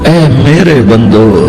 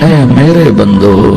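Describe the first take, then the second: Both takes have the same delivery.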